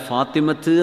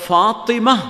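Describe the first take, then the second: First: The word ends with a final t sound. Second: The word ends without a final t sound. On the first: The speaker calls it wrong. "ഫാത്തിമത്ത് എന്നല്ല" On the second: The speaker calls it right. "ഫാത്തിമ എന്നാണ് വായിക്കേണ്ടത്"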